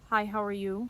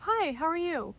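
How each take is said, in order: First: The greeting sounds cold and aggressive. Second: The greeting sounds warm and friendly. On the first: The speaker calls it wrong. "sound very aggressive and cold" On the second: The speaker calls it right. "or very warm and friendly"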